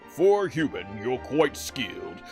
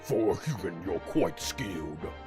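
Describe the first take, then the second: First: The voice is light and higher pitched. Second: The voice is deep and lower pitched. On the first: "he kind of has like a lighter voice" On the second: "here they put that deeper voice"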